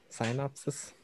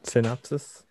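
First: "Synopsis" opening like "sign", very soft; long-i first syllable. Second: "Synopsis" opening with a short "sin"; short-i first syllable. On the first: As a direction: quietly say "Synopsis" as sign-OP-sis, questioning. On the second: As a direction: say "Synopsis" as sin-OP-sis, questioning. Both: Shown as a demonstration. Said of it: "didn't know you call it synopsis".

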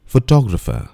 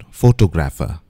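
First: "Photographer" said fuh-TOG-ruh-fuh; "Photographer" with the stress on TOG; careful "Photographer", fuh-tog-ruh-fuh; correct pronunciation. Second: "photographer" said FOH-toh-GRAF-uh; "photographer" with the stress on GRAF; mispronounced "photographer", foh-toh-graf-uh; wrong pronunciation. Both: Shown as a demonstration.

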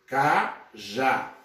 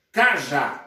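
First: "cajá" slowly split as ca, pause, já; syllable by syllable. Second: Said in the usual way. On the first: Shown as a demonstration. Teacher dividing cajá for students, syllable by syllable. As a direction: break "cajá" into two separate, drawn-out syllables. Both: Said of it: "dividimos em sílabas aqui".

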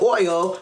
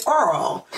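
First: Said in the usual way. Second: Earl with an r sound where oil has oy; a light imitation of dad saying oil as Earl; dad's way of saying oil. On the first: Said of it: "would say Earl". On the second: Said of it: "instead of oil".

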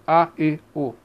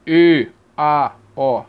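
First: A, E, O as weaker reduced vowels; reduced A, E, O, one at a time. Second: E, A, O wide open and low; E, A, O as low, open classroom vowels. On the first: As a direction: sound out A, E, O short and unstressed. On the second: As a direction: sound out open E, A, O separately. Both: Shown as a demonstration.

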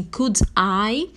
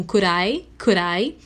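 First: "Could I" with a clear D; careful could I. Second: "Could I" run together as "cur-eye"; fast American linking. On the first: Teacher giving the full form, "Could I" with clear D. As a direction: say "Could I" fully, each word distinct. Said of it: "linguagem rápida americana fica um". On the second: Teacher showing fast American speech, "Could I" linked. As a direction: flap the D in "Could I" into a quick R. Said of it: "na linguagem rápida americana fica um". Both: Shown as a demonstration.

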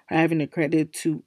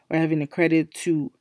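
The two takes are said the same way.

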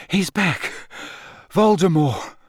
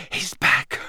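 First: Said in the usual way. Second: Breathless whispered news. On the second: Acted. Harry whispering to Dumbledore from the grass. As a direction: whisper it, barely there. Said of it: "Harry whispered".

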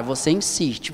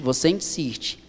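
First: Said in the usual way. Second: Whispered and slow, repeating "você insiste"; a slow urgent whisper of "você insiste". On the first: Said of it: "preacher repeats the exhortation". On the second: Shown as a demonstration. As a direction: breathe "você insiste" with no voice, slowly. Preacher repeats, dropping to whisper.

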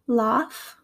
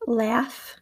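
First: Aussie "laugh" with long ah; attempted Australian "laugh", like "lahf"; Australian accent, broad a in "laugh". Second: American "laugh" with short a; American accent, front vowel in "laugh". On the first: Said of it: "my attempts at an Australian accent". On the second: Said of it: "in my American accent". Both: Shown as a demonstration.

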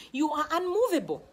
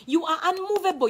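First: Said in the usual way. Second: Unmovable said louder and higher; emphatic repeat. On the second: Shown as a demonstration. Preacher driving the point home to the congregation, louder. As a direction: hammer the word unmovable home.

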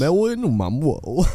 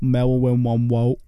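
First: "Marilyn Monroe" said "Mawilyn Monwoe", slow and cooing; says w for r. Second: "Marilyn Monroe" said "Mawilyn Monwoe", slow and breathy; says w for r. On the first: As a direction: copy the w for r in "Monroe". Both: Pretend. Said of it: "a hard name to say with that kind of voice".

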